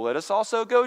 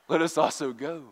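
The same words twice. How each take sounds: First: It is said with a mocking, sarcastic tone. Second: It is said with a dark, mysterious tone. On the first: Going along is obviously a bad idea. "think about it sarcastically" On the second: They are solemnly ready to die with him. "the dark, mysterious, Let us also go. I practiced that, but it's hard to do"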